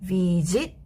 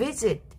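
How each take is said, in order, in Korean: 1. 강세는 두 번째 음절에 있어요. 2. 강세는 첫 번째 음절에 있어요. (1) "하고 읽진 않아요" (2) "우리가 visit 이렇게 읽지"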